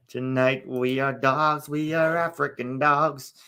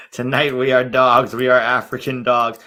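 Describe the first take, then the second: First: Slow, half-sung robotic melody; sung, stretch it out like an auto-tuned hook; sung, mock auto-tune. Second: Loud, spoken mock rallying cry; mock coach quote. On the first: Shown as a demonstration. Streamer demonstrating the auto-tuned coach quote, slow half-singing. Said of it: "auto-tune that". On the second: Streamer quoting the coach's pep talk, loud and mocking. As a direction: belt out the coach's motto, spoken. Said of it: "Somebody should, uh, auto-tune that".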